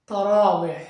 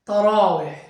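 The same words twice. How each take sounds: No difference in how they are said.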